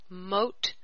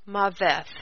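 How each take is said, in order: First: The word has one syllable ending in a t sound. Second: The word has two syllables ending in a th sound. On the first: The speaker calls it right. "it actually is Mot" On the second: The speaker calls it wrong. "the Strongs and Brown Driver Briggs say that number 4194 is pronounced Maveth, and I don't believe that's the case"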